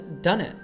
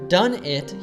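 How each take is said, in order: First: The two words are reduced and linked together. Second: The two words are said clearly and separately. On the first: "he says done it" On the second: "a clear done it"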